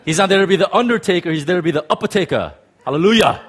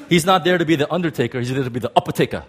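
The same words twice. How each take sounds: First: Louder, fast, laughing preacher hype; T D Jakes impression, full force. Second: Fast, punchy preacher cadence, lightly done; T D Jakes impression. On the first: Preacher redoes the Jakes line louder to the crowd. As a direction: go big like T D Jakes, end on hallelujah. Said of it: "Let me say it again". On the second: Preacher tries his T D Jakes impersonation for the congregation. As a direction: rattle it off like T D Jakes. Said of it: "my best T D Jakes impersonation".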